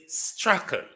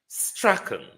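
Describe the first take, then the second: Both takes have the same delivery.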